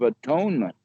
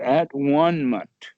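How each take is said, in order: First: The middle is said as 'tone'. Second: The middle is said as 'one'.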